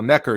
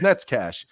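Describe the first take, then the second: First: The name is read as English, ending in 'ker'. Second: The name is said 'Nets-kash', ending in 'kash'. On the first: It is read the way English spelling suggests. The speaker calls it wrong. "He'd always say" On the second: It is said the way the original language says it. The speaker calls it right. "you know that how that's pronounced, it's Netscash"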